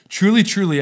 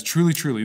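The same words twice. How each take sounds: First: "Truly, truly" said higher and louder, each "truly" hit hard and falling; emphatic truly. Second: Said in the usual way. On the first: Retold or imitated. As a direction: preach both "truly" with force. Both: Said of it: "as he emphasizes".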